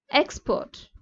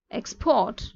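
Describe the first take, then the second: First: EX in "expert" stressed, second syllable falling away; first-syllable stress. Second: PORT in "export" stressed, pitch rising onto it; last-syllable stress. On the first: Teacher demonstrating nouns, "expert" stressed on EX. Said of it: "stress on first syllable noun". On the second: Teacher demonstrating verbs, "export" stressed on PORT. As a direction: hit the second syllable of "export". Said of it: "the stress on last syllable". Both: Shown as a demonstration.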